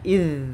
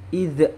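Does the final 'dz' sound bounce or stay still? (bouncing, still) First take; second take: still; bouncing. First: The final consonant is held without a bounce. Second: The final consonant is released with a bounce. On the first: The speaker calls it right. "zal ini bukan bagian dari huruf qalqalah" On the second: The speaker calls it wrong. "dibaca seperti memantul"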